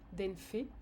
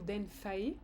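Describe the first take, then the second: First: The last syllable is said like 'feh'. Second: The last syllable is said like 'fay'. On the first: This is how the speaker personally says it. "moi je le prononce fait" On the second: Some other speakers say it this way. "certains disent fae"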